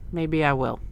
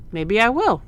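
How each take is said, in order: First: Maybe I will with I stressed, in a level tone; a light East Coast gangster with I stressed. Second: Maybe I will with will hit higher and louder; a light East Coast gangster with will stressed. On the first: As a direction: lean on I, as if it's a dare. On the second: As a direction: lean up onto will, a cocky promise. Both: Shown as a demonstration.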